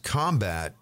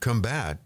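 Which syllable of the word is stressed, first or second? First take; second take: first; second. First: The stress is on the first syllable. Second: The stress is on the second syllable. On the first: The word is used as a noun. "combat is a noun" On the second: The word is used as a verb. "Combat is a verb"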